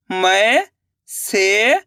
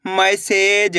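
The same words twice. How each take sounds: First: मैसेज stretched very slowly, rising; drawn-out sounding out. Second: Said in the usual way. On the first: Shown as a demonstration. Teacher sounding out मैसेज slowly for pupils. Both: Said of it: "अब आगे देखिए".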